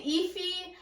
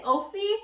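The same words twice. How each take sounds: First: "Efi" said EE-fee; alternate pronunciation. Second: "Ophi" said OH-fee; alternate pronunciation. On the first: Reader tries another guess at the character's name, alternate pronunciation. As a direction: say "Efi" with a long EE and a fee ending. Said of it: "I wanna say Efi". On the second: Reader unsure of a character's name, guessing pronunciation. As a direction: say "Ophi" with a long O and a fee ending. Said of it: "I wanna say Ophi". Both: Shown as a demonstration.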